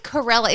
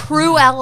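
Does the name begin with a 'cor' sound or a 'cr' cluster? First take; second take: cor; cr. First: The name begins with a separate 'co' syllable. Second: The name begins with a tight 'cr' cluster. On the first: The speaker calls it wrong. "You keep saying it as Corella" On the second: The speaker calls it right. "It's Cruella"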